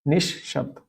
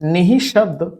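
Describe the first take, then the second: First: No extra syllable follows 'ni'. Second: An extra 'hi' syllable follows 'ni'. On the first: The speaker calls it right. "निशब्द ही सही है" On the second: The speaker calls it wrong. "निहि शब्द नहीं होता है, गलत होता है"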